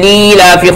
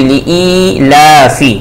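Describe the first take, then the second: First: The first vowel is drawn out long. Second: The first vowel is said short and quick. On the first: The speaker calls it wrong. "लोग पढ़ते हैं, जो बिल्कुल गलत है" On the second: The speaker calls it right. "इस हरकत को हमें जल्द अदा करनी चाहिए"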